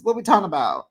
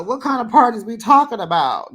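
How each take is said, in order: First: Said in the usual way. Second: Incredulous. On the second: Retold or imitated. Continues outraged retort.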